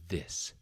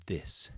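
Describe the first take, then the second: First: The word begins with a th sound. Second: The same.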